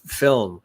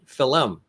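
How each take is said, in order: First: It is said as one plain syllable. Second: It is said with an extra syllable, Irish style.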